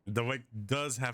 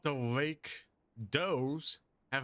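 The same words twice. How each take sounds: First: 'Does' is pronounced as the verb, rhyming with fuzz. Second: 'Does' is pronounced like plural 'doe', rhyming with doze. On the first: The speaker calls it right. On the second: The speaker calls it wrong.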